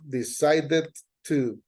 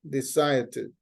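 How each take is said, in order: First: The d and t sounds are said separately. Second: The d and t sounds merge into one. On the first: The speaker calls it wrong. "Instead of decided to" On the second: The speaker calls it right.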